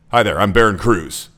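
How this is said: The voice sounds flat and cold. The speaker calls it wrong. "that's disengaging. That's not friendly"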